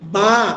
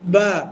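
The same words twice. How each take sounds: First: It is said with the mouth opened very wide. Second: It is said naturally with relaxed lips. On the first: The speaker calls it wrong. "মানে মুখ অনেক বড় করে ফেলবেন, এরকম হবে না" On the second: The speaker calls it right. "ঠোঁট স্বাভাবিক রাখলে বা"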